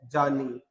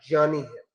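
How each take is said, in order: First: जानी said with a plain ज sound, the way students say it; common wrong pronunciation. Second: ज्ञानी said with a clear ग्य sound, gyani; correct pronunciation. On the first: Teacher showing students the wrong way, a plain जानी. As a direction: say जानी the everyday way, without the ग्य sound. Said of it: "ज्ञानी नहीं है". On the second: Teacher giving students the correct gyani sound. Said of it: "क्या है आपका". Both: Shown as a demonstration.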